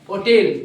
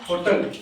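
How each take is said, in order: First: The word begins with an o sound, no h. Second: The word begins with an audible h sound. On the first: The speaker calls it right. "ये silent होता है" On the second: The speaker calls it wrong. "गलत तरीके से बोलते हैं"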